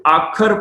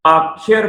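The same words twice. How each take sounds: First: ਆਖਰ with a plain khar ending; wrong pronunciation. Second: ਆਖਰ slowly, ending in khi-ar; correct pronunciation. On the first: Teacher warning against a misreading, ਆਖਰ ending in khar. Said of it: "ਇਹਨੂੰ ਆਖਰ ਪਾਠ ਨਹੀਂ ਕਰਨਾ". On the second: Teacher showing the right reading, ਆਖਰ with khiar. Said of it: "ਆਖਰ ਪਾਠ ਕਰਨਾ ਹੈ ਜੀ". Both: Shown as a demonstration.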